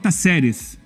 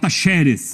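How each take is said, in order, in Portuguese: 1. Pronuncia-se com sotaque de Córdoba. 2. Pronuncia-se com sotaque de Buenos Aires. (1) "Se você for de Córdoba, você fala Taceres" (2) "se você for de Buenos Aires, você fala Tacheres"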